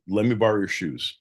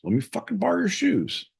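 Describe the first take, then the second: First: Said in the usual way. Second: High-pitched insistent begging; insistent plea. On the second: Acted. Host begs John to lend his shoes, high pleading.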